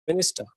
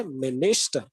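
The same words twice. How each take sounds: First: Said in the usual way. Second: "minister" leaning hard on its middle "nis"; middle-syllable stress. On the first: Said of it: "instead of saying". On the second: Shown as a demonstration. Teacher correcting the flat version for students, "minister" stressed on the middle syllable. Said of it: "there is a stress in the middle syllable".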